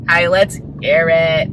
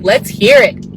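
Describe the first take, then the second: First: Slow, put-on French accent; slow English with a French lilt; playful French accent. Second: Said in the usual way. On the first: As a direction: drag it out in a mock French accent. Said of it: "speaking English in a French accent".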